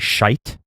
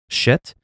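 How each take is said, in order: First: The word has a long 'eye' vowel. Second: The word has a short 'ih' vowel. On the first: "I try to say shite, you know, because you're changing the sound of the word" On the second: "you say, you know, shit"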